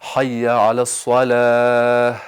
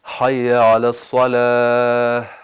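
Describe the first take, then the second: The two takes are said the same way.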